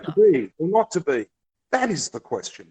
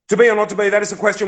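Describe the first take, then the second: First: The line is read slowly, savoring each phrase. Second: The line is read quickly without savoring it. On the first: The nuance of the line comes through. The speaker calls it right. "if you go" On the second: The nuance of the line is lost. The speaker calls it wrong. "if I was teaching you Shakespeare and I was reading it like this"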